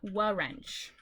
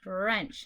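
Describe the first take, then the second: First: The word begins with an extra W sound. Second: The word begins directly with an R sound. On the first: The speaker calls it wrong. "not wa-wrench" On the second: The speaker calls it right. "you do not pronounce the W, just the R"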